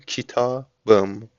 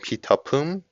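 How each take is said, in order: First: The consonant before the ending is a voiced b. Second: The consonant before the ending is a voiceless p. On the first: The speaker calls it right. "میگیم کتابم" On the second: The speaker calls it wrong. "به جای اینکه بگیم کتاپم"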